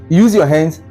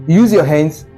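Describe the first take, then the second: No difference in how they are said.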